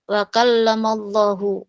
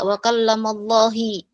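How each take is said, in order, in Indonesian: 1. Kata Allah berakhir dengan vokal u. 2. Kata Allah berakhir dengan vokal i. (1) "Yang benar adalah wa kallamallahu" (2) "maka itu salah"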